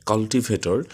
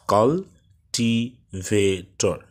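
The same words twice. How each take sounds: First: Said in the usual way. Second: কাল্টিভেটর said very slowly as কাল-টি-ভে-টর with three breaks; broken into syllables. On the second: Shown as a demonstration. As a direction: chop কাল্টিভেটর into four slow parts. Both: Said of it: "চারবার, তিনবার থামতে হয়েছে".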